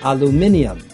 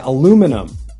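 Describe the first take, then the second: First: It is said the British way. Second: It is said the American way. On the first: "In the UK, they would say" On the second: "And in the US, they would say"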